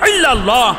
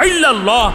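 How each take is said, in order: The two takes are said the same way.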